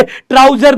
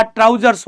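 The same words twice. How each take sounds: First: ट्राउजर said ending on r, no s; wrong singular form. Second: ट्राउजर्स with a clear final s; correct plural form. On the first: Teacher quoting the student's wrong ट्राउजर without s. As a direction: say ट्राउजर bare, as the student's mistake. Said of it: "ट्राउजर नहीं बेटा". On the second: Teacher correcting students to ट्राउजर्स with the s. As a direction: close ट्राउजर्स on a crisp s sound. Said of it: "ट्राउजर्स होता है". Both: Shown as a demonstration.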